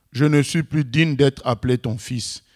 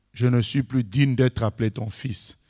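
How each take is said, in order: The two takes are said the same way.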